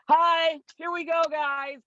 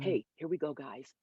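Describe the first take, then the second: First: It is said loudly and peppily. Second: It is said with quieter, focused intensity.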